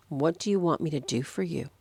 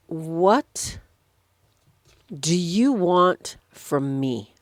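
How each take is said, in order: First: Said in the usual way. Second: Drawn out with long pauses; slow, weighty question. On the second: Retold or imitated. Jesus asks the blind man what he wants, slow and deliberate. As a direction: ask it slowly, word by word.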